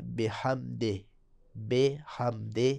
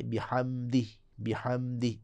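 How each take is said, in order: First: بحمدہ ending in an e like behamde; wrong Punjabi e ending. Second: بحمدہ ending in a clear i, bihamdi; right tajweed take of بحمدہ; correct i ending. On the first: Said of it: "یہ صحیح نہیں ہے". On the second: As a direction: end بحمدہ with a pure i. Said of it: "بلکہ". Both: Shown as a demonstration.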